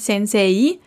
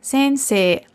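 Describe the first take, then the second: First: The ending is a gliding 'e-i' diphthong. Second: The ending is a single long 'e' vowel. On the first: The speaker calls it wrong. "es ist nicht Sensei" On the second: The speaker calls it right. "sondern Sensei"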